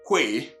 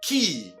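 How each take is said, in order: First: The word is said like 'kway', as spelled. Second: The word is said exactly like 'key'. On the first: The speaker calls it wrong. "this word is never pronounced que as spelled" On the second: The speaker calls it right. "but rather what? Key"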